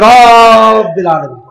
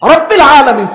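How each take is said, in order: First: The vowels are stretched out long. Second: The vowels are said short and quick. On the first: The speaker calls it wrong. "তিনি রব্বিল আলামিন।" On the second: The speaker calls it right. "হরকতের উচ্চারণ তো তাড়াতাড়ি হয়।"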